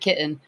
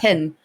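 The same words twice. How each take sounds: First: The double T is said in standard style. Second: The double T is said California-style.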